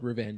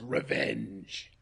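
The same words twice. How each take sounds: First: The word is said flatly and plainly. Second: The word is said dramatically and forcefully. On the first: The speaker calls it wrong. "the show is not called Revenge" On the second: The speaker calls it right. "It's called Revenge. You need to say it like that"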